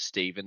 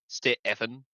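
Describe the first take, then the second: First: The name is said with normal stress. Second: The first sound is heavily overemphasized. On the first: The speaker calls it right. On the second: The speaker calls it wrong.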